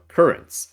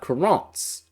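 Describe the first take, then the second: First: The word is pronounced the ordinary English way. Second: The word is pronounced with a French-style sound. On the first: The speaker calls it right. "as normal people say it" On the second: The speaker calls it wrong. "a sort of Frenchified way of putting it"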